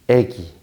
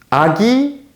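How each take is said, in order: First: The first vowel is a front vowel. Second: The first vowel is a back vowel.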